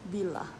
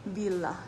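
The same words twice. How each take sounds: No difference in how they are said.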